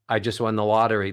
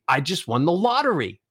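First: The pitch stays level on one note. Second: The pitch climbs from low to high. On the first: The win sounds small and unimportant. The speaker calls it wrong. "If you just do it monotone" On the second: The speaker is excited and happy. The speaker calls it right. "Ascending melodies make you sound excited, make you sound happy"

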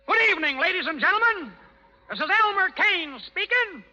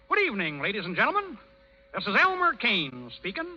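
First: It is said loudly. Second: It is said quietly.

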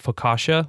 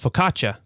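First: The middle consonant is a soft sh sound. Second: The middle consonant is a hard ch sound. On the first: This is the common American English way. "we would call it focaccia with this like soft SH" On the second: This is the Italian way. "the double C in Italian is a harder CH"

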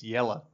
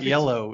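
First: The word ends in a reduced 'uh' vowel. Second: The word ends in a clear, full 'oh' vowel. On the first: The speaker calls it right. "it's Yella" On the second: The speaker calls it wrong. "It's not yellow"

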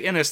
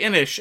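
First: The word ends with an 's' sound. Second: The word ends with an 'sh' sound. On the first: This follows the spelling of the name. "if you say Innis, they get very, very snooty about it" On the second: This is how most people say it. "People say Innish"

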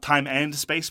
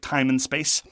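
First: The middle word is a full 'and'. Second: The middle word is reduced to 'n'. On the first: The speaker calls it wrong. "Not time and space" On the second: The speaker calls it right. "but time and space. Apostrophe N"

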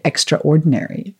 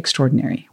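First: It is pronounced in a South African way. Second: It is pronounced in a non-South-African way. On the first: "As we actually say in South Africa, we say extraordinary" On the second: "we don't say extraordinary"

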